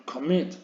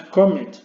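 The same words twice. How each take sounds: First: "commit" with the second syllable stressed; stress on last syllable. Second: "commit" wrongly stressed on the first syllable, higher and louder. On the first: Teacher correcting the pronunciation of commit, end-stressed. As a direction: let "commit" land on its end, com-MIT. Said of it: "El golpe de voz lo lleva a la última sílaba". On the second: Teacher showing how not to say commit, front-stressed. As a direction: punch the start of "commit", COM-mit. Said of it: "No es commit". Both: Shown as a demonstration.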